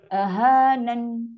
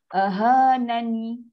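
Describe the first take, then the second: First: The word ends on a stopped n sound. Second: The word ends with a final i vowel. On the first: The speaker calls it right. "itu dah bunyi dia" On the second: The speaker calls it wrong. "kita nak berhenti tak ada bunyi ahanani"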